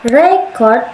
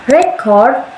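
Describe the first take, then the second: First: The stress is on the first syllable. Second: The stress is on the second syllable. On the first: It is used as a noun. "ditekankan pada kata re, maknanya kata benda" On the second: It is used as a verb. "ditekankan pada kata cord, maknanya kata kerja"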